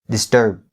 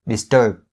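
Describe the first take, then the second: Both takes have the same delivery.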